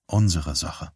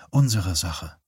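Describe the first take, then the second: First: Lightly voiced man, slightly lower; man's line. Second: Lightly voiced woman agreeing; agreeing echo. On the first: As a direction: state "unsere Sache" low-key, as the man. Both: A narrator's reading. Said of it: "pflichtete sie bei".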